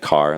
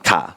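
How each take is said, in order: First: It is said in an American accent. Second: It is said in a South African accent.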